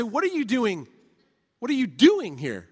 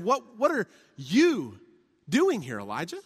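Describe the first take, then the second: First: "What are you doing here" with "you" stressed. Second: "What, what are you" drawn out with "what" stressed slowly. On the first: God singles out Elijah, stressing "you". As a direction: lean on "you" as if singling him out. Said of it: "that's not the emphasis". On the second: Sermon reading God's question, stressing "what". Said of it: "One would be to emphasize this". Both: Shown as a demonstration.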